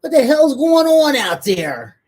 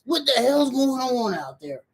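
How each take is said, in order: First: Put-on loud, slow, stern yell at noisy kids; mom voice. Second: Mom voice. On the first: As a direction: bellow like an angry mom. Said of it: "With your mommy voice?". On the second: Retold or imitated. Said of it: "with my mom voice".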